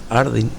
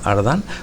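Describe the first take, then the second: First: The ending is said with an 'in' vowel. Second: The ending is said with an 'an' vowel. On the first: The speaker calls it wrong. "no se pronuncia Ardin" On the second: The speaker calls it right. "se pronuncia Ardan"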